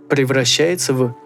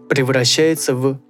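Both takes have the same delivery.

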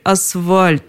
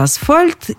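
First: The middle consonant is a V sound. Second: The middle consonant is an F sound. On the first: The speaker calls it wrong. "сказали «асфальт» вместо «асфальт»" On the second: The speaker calls it right. "Правильно, конечно, асфальт. С буквой «Ф» в середине"

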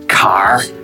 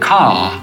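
First: It has a strong Northern Irish R. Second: It drops the R, English style.

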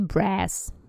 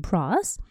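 First: It is said in an American accent. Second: It is said in a British accent. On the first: "а в Америке" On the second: "В Великобритании это слово произносится"

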